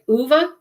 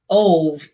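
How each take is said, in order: First: The name is said as two syllables, 'oo-vuh'. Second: The name is read as spelled, one syllable. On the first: This is how people commonly say it. "I hear everybody pronouncing it Uva" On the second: This is how the written name looks. "It looks like Ove"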